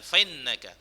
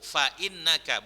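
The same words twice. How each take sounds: First: Fa runs into innaka without a glottal stop. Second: A glottal stop separates fa from innaka. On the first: The speaker calls it wrong. "bukan fa'innaka" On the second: The speaker calls it right.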